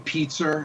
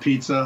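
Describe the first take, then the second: First: Pizza is said with an added r sound. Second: Pizza is said without any r sound. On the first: This is how the local regional accent says it. "we say pizza ... Like with an R? ... Yeah" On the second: This is the standard way others say it. "instead of pizza"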